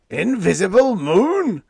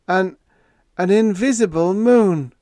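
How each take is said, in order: First: High, loud, slow disbelief; captain and radioman echoing together; shocked echo. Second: High, loud, stunned stutter; awed stammer. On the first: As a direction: echo it stunned. Two men echo in shock. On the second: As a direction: stammer it out awestruck. Todd stammering the strange fact. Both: A narrator's reading.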